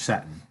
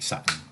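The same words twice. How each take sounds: First: The word has an English pronunciation. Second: The word has a Middle Eastern pronunciation. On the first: "If you use you know English" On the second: "If you go to the Middle East or the Far East, it doesn't sound like Saturn. It sounds like Saturn"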